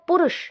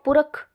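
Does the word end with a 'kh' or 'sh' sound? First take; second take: sh; kh. First: The word ends with a 'sh' sound. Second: The word ends with a 'kh' sound. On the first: The speaker calls it right. "आगे है पुरुष" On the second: The speaker calls it wrong. "लेकिन बोल देते हैं पुरख"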